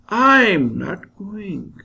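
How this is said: The stress is on the word I'm. Someone else is going instead. "when I stress I'm, I'll pronounce it like this"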